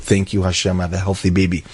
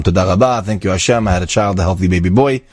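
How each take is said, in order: First: Softer, hushed tearful thanks; a touch of quiet weeping gratitude. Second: Said in the usual way. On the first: Retold or imitated. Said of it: "he was crying his eyes out". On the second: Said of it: "he was crying with gratitude".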